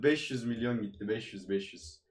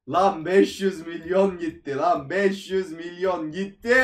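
First: Deflated mumble. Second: Exasperated outburst. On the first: Quiet muttering over loss. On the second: Exploding over lost money. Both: Real, not acted.

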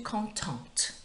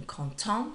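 First: "contente" slow, with a clear T at the end; sounded final T. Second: "content" ending on a nasal vowel, no T; silent T. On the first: Teacher showing the feminine form, "contente" with sounded T. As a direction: draw out "contente" and finish on an audible T. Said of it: "changes with pronunciation". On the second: Teacher contrasting masculine with feminine, "content" with silent T. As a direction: say "content" the French way, leaving the final T unsounded. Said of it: "with the silent T". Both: Shown as a demonstration.

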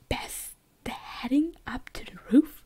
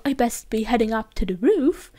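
First: Slow, puzzled questioning; baffled, drawn out into a question; confused misreading. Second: Said in the usual way. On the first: Real, not acted. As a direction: read it haltingly as if it makes no sense. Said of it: "ich war so verwirrt". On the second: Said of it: "ich hab jetzt gerade einfach verstanden".

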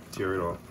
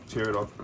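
No difference in how they are said.

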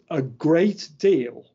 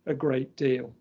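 First: A great DEAL with the word deal hit hard and louder; stress on a great deal. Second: Said in the usual way. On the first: Shown as a demonstration. Lecturer to audience, stressing a great deal. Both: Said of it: "emphasis on the word".

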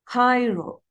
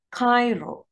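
Both takes have the same delivery.

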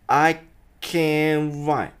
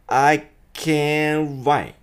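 First: "I can write" slow, T dropped; can without T. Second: "I can write" sung slowly with no T; clear can. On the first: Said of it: "この最初が". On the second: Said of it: "I can'tってならないように". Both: Shown as a demonstration.

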